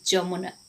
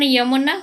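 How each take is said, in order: First: The word begins with a 'j' sound. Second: The word begins with a 'y' sound. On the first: "Odia उच्चारण" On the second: "Hindi उच्चारण"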